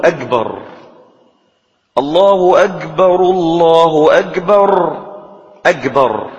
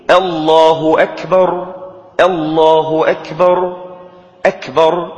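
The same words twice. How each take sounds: First: Slow call with أكبر pronounced "agbar"; kaf turned to g. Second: Measured chant of الله أكبر, crisp ك in أكبر; correct kaf. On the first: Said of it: "وبعضهم يقلب الكاف جيما". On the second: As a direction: slowly intone أكبر with a clear unvoiced k, "akbar". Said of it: "بالكاف". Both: Shown as a demonstration.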